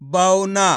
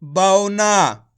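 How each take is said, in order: First: बौना said at normal speed; blended word. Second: बौना drawn out very slowly, bau-na; slow blended word. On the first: Teacher repeats the blended word बौना. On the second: Teacher blends the letters into बौना. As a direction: stretch बौना slowly and loudly. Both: Shown as a demonstration. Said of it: "तो मिलके बन जाएगा".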